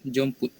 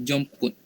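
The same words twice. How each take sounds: Both takes have the same delivery.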